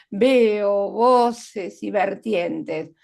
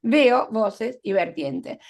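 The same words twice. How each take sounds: First: "Veo voces y vertientes" muy lento, marcando cada V; aliteración marcada. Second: Said in the usual way. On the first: Shown as a demonstration. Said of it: "V, v". (remarca la V inicial de "Veo voces y vertientes" muy despacio) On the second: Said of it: "se repite una consonante".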